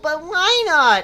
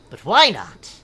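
First: It is read in a whiny voice. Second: It is read in an ordinary voice. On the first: The speaker calls it right. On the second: The speaker calls it wrong.

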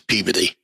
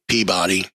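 First: The name is said in a reduced local form. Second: Every syllable is pronounced fully, as spelled. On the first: The speaker calls it right. "and it's Peabody" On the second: The speaker calls it wrong. "You think Peabody"

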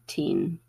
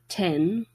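First: Said with the newer, shifted vowel. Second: Said with the older, unshifted vowel. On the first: This is how it is said now. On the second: This is the earlier way of saying it.

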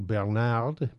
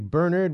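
First: The name is said with a French pronunciation. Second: The name is said with an English pronunciation. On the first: "as opposed to Bernard, because my French is atrocious" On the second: "which is the German/English pronunciation"

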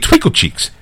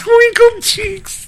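First: It is said in a serious, straight tone. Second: It is said while laughing, amused.

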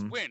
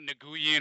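First: The name sounds just like the word win. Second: The name is said differently from the word win. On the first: The speaker calls it right. "It's win" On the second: The speaker calls it wrong. "It's not Nguyen"

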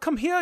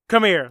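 First: It is said in a bad German accent. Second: It is said in a plain accent.

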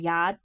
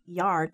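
First: The word is said with the R dropped. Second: The word is said with a clear R sound. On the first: "They say yad" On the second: "But they don't say yard"

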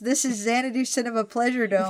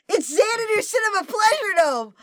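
First: It is said in a flat, unexcited tone. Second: It is said in an excited, lively tone.

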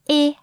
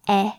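First: The vowel is closed, with lips spread wide. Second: The vowel is open, with the mouth wide. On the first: "You smile" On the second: "then you open your mouth like this"

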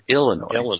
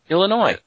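First: The stress falls on the first syllable. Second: The stress falls on the last syllable. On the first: The speaker calls it wrong. "He put the emphasis on ill. He said Illinois" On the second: The speaker calls it right. "you say it"

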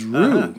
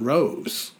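First: The first syllable sounds like 'rue'. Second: The first syllable sounds like 'rose'. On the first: The speaker calls it right. "pronounce Roosevelt Lake correctly as Rue" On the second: The speaker calls it wrong. "not Rose"

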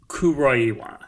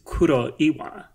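First: The name is said with English pronunciation. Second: The name is said with Japanese pronunciation. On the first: "so like the English, I guess, is Kuroiwa" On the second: "but the Japanese pronunciation is Kuroiwa"

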